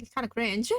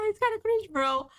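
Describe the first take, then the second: First: Said in the usual way. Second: Much higher, laughing mock repeat. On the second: Shown as a demonstration. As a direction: squeak it out teasingly.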